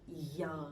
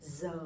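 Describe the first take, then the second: First: It is said with a southern y sound. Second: It is said with a northern Hanoi z sound.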